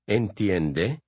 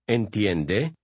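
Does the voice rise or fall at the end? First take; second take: rise; rise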